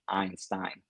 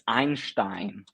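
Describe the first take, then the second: First: It is said with an English pronunciation. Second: It is said with a German pronunciation. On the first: The speaker calls it wrong. "not Einstein" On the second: The speaker calls it right. "all the Germans in front of the laptops will be like, it's Einstein"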